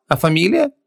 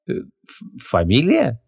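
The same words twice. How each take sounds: First: Said in the usual way. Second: Stumbling on «фамилия» with a false start; caught-out, faltering «фамилия»; stammering. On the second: A narrator's reading. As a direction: stall on «фамилия», echoing the question uncertainly. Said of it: "запнулась Ванесса".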